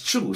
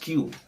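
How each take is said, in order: First: The word starts with a ch sound. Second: The word starts without a ch sound. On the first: The speaker calls it right. "It will be pronounced as Chu. So the Q in Chinese sounds like a C H" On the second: The speaker calls it wrong. "It's not actually pronounced Q"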